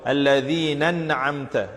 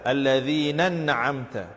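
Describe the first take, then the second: The two takes are said the same way.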